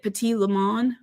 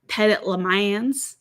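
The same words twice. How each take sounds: First: The name is said in a French-like way. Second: The name is said in a local Georgia way.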